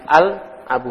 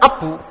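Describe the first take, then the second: First: The article al is pronounced. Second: The article al is dropped. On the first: The speaker calls it right. "tapi al abu" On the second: The speaker calls it wrong. "enggak abu"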